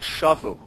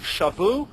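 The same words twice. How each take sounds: First: Shavu stressed on the opening sha; accent on first syllable. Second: Shavu stressed on the final vu; accent on last syllable. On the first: Teacher contrasting two verbs, shavu stressed on sha. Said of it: "if the accent were on the first syllable". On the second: Teacher contrasting two verbs, shavu stressed on vu. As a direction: hit the VU in shavu. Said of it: "It's on the last syllable". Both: Shown as a demonstration.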